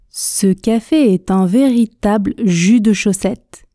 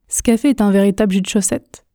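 First: The sentence is said at a moderate speed. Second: The sentence is said at a fast speed. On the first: "Vitesse intermédiaire" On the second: "la vitesse rapide. Écoutez la prononciation"

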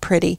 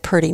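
First: The word has a clear 'pr' and a crisp t. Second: The word sounds like 'purdy', with a soft d. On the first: This is the usual way of saying it. "not pretty" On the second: This is how an older relative said it. "She always said pretty"

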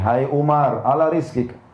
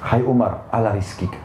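First: It is said in a firmer, more forceful voice. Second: It is said in a gentle, soft voice.

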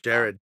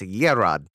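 First: The name begins with a J sound. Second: The name begins with a Y sound. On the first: This is the name's real pronunciation. The speaker calls it right. "it is actually just pronounced Jared" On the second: This is a jokingly altered pronunciation. The speaker calls it wrong. "we can fuck with the pronunciation. It's Yerad"

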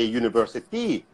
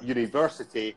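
First: The stress falls on the final 'ty' syllable. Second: The stress falls on the 'ver' syllable. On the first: This is how Thai learners say it. The speaker calls it wrong. "they say university... they stress the final syllable" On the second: This is the normal English pronunciation. The speaker calls it right. "instead of saying university"

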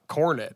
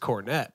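First: The surname is said the plain, rustic way. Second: The surname is said the fancy, upscale way. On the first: This is the family's original hillbilly pronunciation. "because they're hillbillies, so they pronounce my last name Cornet" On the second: This is the uppity, upper-crust pronunciation. "your name is Cornette"

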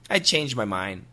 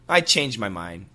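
First: The D at the end of changed is dropped. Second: The same.

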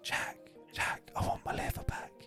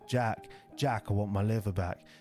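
First: It is whispered quietly. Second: It is said loudly.

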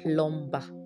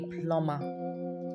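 First: The B sound is pronounced. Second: The B sound is silent. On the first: The speaker calls it wrong. "not a plumber" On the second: The speaker calls it right. "The B in plumber is silent"

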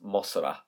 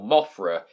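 First: The middle consonant is an 's' sound. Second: The middle consonant is a 'th' sound. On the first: This is how the name is said in Japan. "in Japan is pronounced Mosra" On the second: This is the English version of the name. "So Mothra in Japan"

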